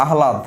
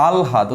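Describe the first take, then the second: First: আহ্লাদ said as "a-ha-lad"; আহ্লাদ in three syllables, "a-ha-lad"; common mispronunciation. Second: আলহাদ said "al-had", lower; আলহাদ in two syllables, "al-had"; correct pronunciation. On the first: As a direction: put h before l in আহ্লাদ. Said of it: "এরকম আমরা বলি". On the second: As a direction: put l before h in আলহাদ. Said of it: "উচ্চারণটা হবে হচ্ছে". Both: Shown as a demonstration.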